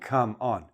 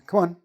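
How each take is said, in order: First: The words are separated, both fully stressed. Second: The words are joined, stress on the second. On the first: The speaker calls it wrong. "We're not saying come on. We don't separate" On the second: The speaker calls it right. "We make the first word very small and we put a little bit more stress on the second part"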